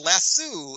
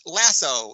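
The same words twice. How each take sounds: First: The word is said the British way. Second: The word is said the American way. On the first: "in England and Australia" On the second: "in America"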